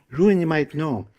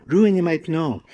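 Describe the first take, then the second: No difference in how they are said.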